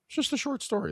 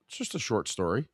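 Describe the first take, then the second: First: The same line jumped way up in pitch, softly; much higher repeat. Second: Said in the usual way. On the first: Shown as a demonstration. Repeating the title to the viewers, sung out high. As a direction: say it again in a high, light voice.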